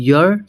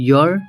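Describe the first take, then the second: Both takes have the same delivery.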